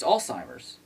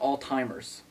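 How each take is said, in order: First: The word is said with a z sound. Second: The word is said with a t sound. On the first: The speaker calls it right. "It's Alzheimer's" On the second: The speaker calls it wrong. "Not all-timers"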